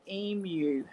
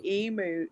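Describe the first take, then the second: First: EMU as "ee-myoo", drawn out slowly; correct Australian pronunciation. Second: EMU as "ee-moo", no Y glide; as-spelt pronunciation. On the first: Shown as a demonstration. Australian teaching the word, EMU said "ee-myoo". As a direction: say emu slowly with a Y glide, "eem-yoo". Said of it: "but it's not". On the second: Retold or imitated. Australian showing the misreading, EMU said "ee-moo". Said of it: "looks like it would sound".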